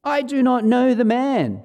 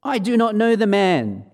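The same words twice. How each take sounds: First: Higher, louder swearing denial; cursing denial. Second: Higher, louder insistent denial; firmer denial with an oath. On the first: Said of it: "invoke a curse on himself and swear". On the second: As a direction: deny it hard under oath. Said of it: "again he denied it with an oath". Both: Acted.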